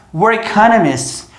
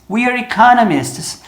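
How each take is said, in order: First: "We're economists" with "We're" reduced to "were"; "We're economists" said as "wer economists"; sped-up contraction. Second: "we're economists" with "we're" as "wee-er"; slow, careful "we're economists"; full contraction. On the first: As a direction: squeeze "We're" into one short syllable before "economists". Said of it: "falar a frase inteira rápida". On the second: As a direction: keep the long ee in "we're" before "economists". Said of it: "se eu fizer a contração". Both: Shown as a demonstration.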